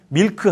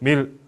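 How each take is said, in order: First: It ends with an added 'keu' syllable. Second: It ends without any added final syllable. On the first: The speaker calls it wrong. "밀크 하면 절대 못 알아듣습니다" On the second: The speaker calls it right. "큰 안 해요"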